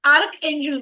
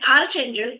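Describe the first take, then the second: First: The first part ends in a 'k' sound. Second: The first part ends in a 'ch' sound. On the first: "उच्चारांमध्ये भिन्नता असली तरी angels तेच आहेत" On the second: "आर्च angel किंवा आर्क angel पण म्हटलं जातं"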